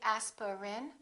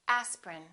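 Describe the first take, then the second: First: The middle vowel is clearly pronounced. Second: The middle vowel is dropped entirely. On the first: The speaker calls it wrong. "Don't say aspirin" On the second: The speaker calls it right. "one vowel, one syllable, which is not pronounced"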